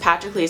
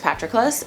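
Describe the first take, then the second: First: The last syllable sounds like 'cleez'. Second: The last syllable sounds like 'clus'. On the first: The speaker calls it wrong. "I read it as Patrocles the entire time" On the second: The speaker calls it right. "I'm pretty sure it's Patroclus"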